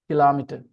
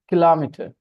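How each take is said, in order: First: The stress is on the second syllable. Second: The same.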